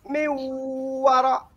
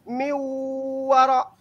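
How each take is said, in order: No difference in how they are said.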